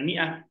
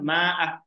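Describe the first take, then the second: First: The first vowel is a close i sound. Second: The first vowel is an open a sound. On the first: The speaker calls it right. "bukan mi'ah" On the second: The speaker calls it wrong. "membaca dengan bacaan yang salah, yaitu dibaca fathah"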